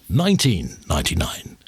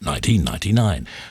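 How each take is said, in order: First: The stress falls on nineteen. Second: The stress falls on ninety-nine.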